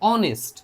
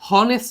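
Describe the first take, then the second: First: The word begins with a vowel, no h. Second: The word begins with a pronounced h sound. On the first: The speaker calls it right. "কিন্তু অনেস্ট" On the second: The speaker calls it wrong. "হনেস্ট না"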